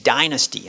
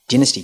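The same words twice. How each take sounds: First: It is said in an American accent. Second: It is said in a non-American accent.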